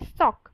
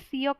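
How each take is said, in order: First: The vowel sounds like an open aw. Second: The vowel starts with a y glide. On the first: The speaker calls it right. "वो है सॉक" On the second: The speaker calls it wrong. "सियोक नहीं है"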